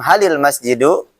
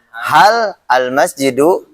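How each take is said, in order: First: The two words are linked together. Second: The two words are said separately.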